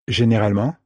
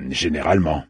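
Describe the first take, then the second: First: "Généralement" with a rising end; "Généralement" asked, pitch climbing at the end; questioning echo. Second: "Généralement" lower, with a falling end; "Généralement" stated, tune going down; falling statement. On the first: She repeats his word as question. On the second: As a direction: say "Généralement" as a settled afterthought, pitch dropping. Crewman qualifies his reassurance. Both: Acted.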